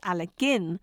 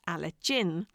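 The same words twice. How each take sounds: First: The last syllable does not sound like 'gin'. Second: The last syllable sounds like the drink 'gin'. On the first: The speaker calls it right. "as you've just heard me, pronounced Alligin" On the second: The speaker calls it wrong. "not Alligin"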